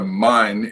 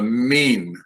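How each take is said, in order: First: The vowel sounds like eye. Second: The vowel sounds like ee. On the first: The speaker calls it wrong. "this is not a mine" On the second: The speaker calls it right. "The I Y is pronounced like a long E"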